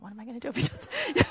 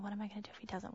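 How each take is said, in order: First: Anxious worry. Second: Softly, to herself; worried inner voice. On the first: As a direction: fret over it aloud. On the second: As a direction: think it aloud, anxious. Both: Retold or imitated. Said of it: "I'm thinking".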